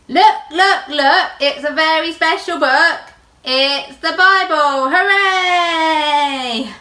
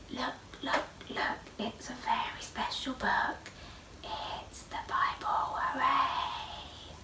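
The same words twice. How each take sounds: First: It is said very loudly. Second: It is said very quietly.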